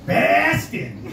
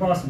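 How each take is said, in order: First: It is said in an exaggerated put-on accent. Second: It is said in a natural local accent. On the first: An outsider mimics how locals supposedly talk. The speaker calls it wrong. "they always say Boston in a way that no one from Boston ever says Boston" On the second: A local says the name of his city. The speaker calls it right. "hey, I'm from Boston"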